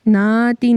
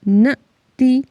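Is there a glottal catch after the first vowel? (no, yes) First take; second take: no; yes. First: The first vowel flows on without a catch. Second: The first vowel is cut off with a catch. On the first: The speaker calls it wrong. "ना ती नहीं है" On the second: The speaker calls it right. "न ती क्योंकि अलिफ के ऊपर हमज़ा है"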